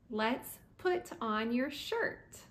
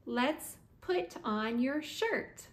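Both takes have the same delivery.

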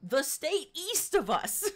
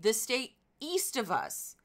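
First: Much higher, drawn-out "east of us"; incredulous repeat. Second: Higher pitch, leaning on "east"; stress on east. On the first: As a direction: stretch "east of us" slowly, rising in disbelief. Repeats it in mock disbelief. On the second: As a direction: punch "east" in a baffled rant. Ranting about Midwest label. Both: Real, not acted.

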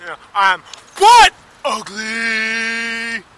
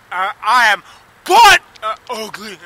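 First: Very slow, loud, sobbing shout; real anguish breaking into a slow sobbing yell; crying shout. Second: Angry self-loathing shout. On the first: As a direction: wail it out through tears, dragging every word. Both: Real, not acted. Self-loathing rant on camera.

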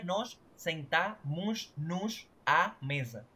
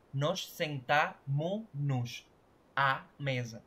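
First: "sentamos" keeping its final S before "nos", as sentamush-nush; too many S sounds. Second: "sentamos" said slowly without its final S, as sentamu-nush; last S removed. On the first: Teacher showing why it sounds odd, "sentamos" with its S uncut. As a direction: slowly sound every hushing S in "nos sentamos, nos". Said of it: "disminuir tanta S en una misma expresión". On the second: Teacher showing the fix, "sentamos" slowed with last S dropped. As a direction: cut the S off "sentamos" before "nos", slow and spaced. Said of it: "le quitas la última S".

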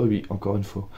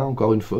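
First: Softer, resigned repeat of encore une fois; quiet rueful echo. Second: Said in the usual way. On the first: Real, not acted. Admitting her bad reading month to viewers, quietly rueful.

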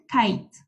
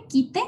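First: Kite said as "kait", one syllable; English pronunciation. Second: Quite read as written, "KEE-teh"; spelling pronunciation. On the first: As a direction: say kite with an "eye" vowel and silent e. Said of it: "pero se pronuncia kite". (kite pronunciado "cait", en inglés) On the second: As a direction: say quite letter by letter in Spanish, two syllables. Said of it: "Se escribe quite". (quite leído como se escribe, "quí-te") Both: Shown as a demonstration.

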